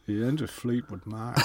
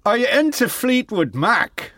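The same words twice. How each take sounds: First: Low, soft, smooth-talker voice; smoothie. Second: High, failed attempt at an Irish accent. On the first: Acted. Rock star sounding out young fan, smoothie murmur. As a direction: purr it quietly like a smooth operator. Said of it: "he was more of a smoothie". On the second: Retrying the rock star's question, overdone Irish accent. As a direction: push a bad Irish accent higher. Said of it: "I'm Irish and I can't".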